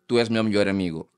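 It is said with a European Portuguese accent. "En Portugal"

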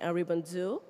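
The name is said in an American accent. "use my American accent"

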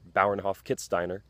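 The name is pronounced with American English sounds. "the Americanized version"

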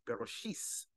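It is said in an Ashkenazi Hebrew pronunciation. "they'll say Bereshis"

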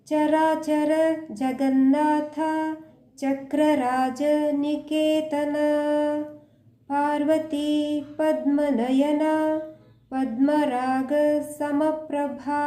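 The line is slow, pausing between words.

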